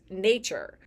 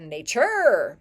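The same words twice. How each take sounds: First: The stress falls on the usual syllable. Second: The stress falls on an unusual syllable. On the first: The speaker calls it right. "just in regular speech" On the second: The speaker calls it wrong. "the emphasis is on the wrong syllable"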